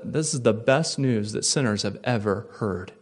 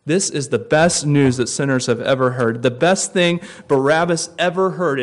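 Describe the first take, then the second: First: Said in the usual way. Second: Repeated with more force; best said louder, falling firmly. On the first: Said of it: "repeated line". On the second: Shown as a demonstration. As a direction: push the repeat, leaning on best. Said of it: "repeated louder".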